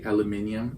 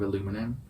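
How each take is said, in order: First: "aluminium" with an extra "i" before the final "um"; British pronunciation. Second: "aluminum" as a-LOO-mi-num; American pronunciation. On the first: Co-host showing how British people say it, "aluminium" in five syllables. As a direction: say "aluminium" as al-yoo-MIN-ee-um. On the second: Co-host contrasting it with British usage, "aluminum" stressed on LOO. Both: Shown as a demonstration. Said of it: "British people say aluminium instead of aluminum".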